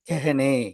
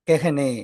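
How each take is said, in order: The two takes are said the same way.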